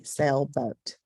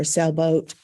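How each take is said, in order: First: "sailboat" as two separate beats, sail, boat; split into syllables. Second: Said in the usual way. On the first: Shown as a demonstration. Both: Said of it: "syllables would be".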